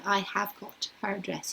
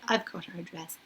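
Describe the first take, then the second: First: The word 'have' is said in full. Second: The word 'have' is contracted to 've. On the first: The speaker calls it wrong. "you wouldn't say" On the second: The speaker calls it right. "you say"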